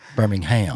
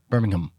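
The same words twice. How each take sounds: First: The final syllable 'ham' is stressed. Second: The final syllable 'ham' is unstressed. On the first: This is how locals of the American city say it. "We put the emphasis on the ham" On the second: This is how it is said in England. "in England they would say Birmingham"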